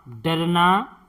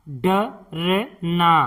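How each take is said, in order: First: Said in the usual way. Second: डरना drawn out slowly as ड-र-ना; slow syllable-by-syllable. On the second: Shown as a demonstration. Teacher sounding out डरना for pupils, slowly. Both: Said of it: "इस तरह से".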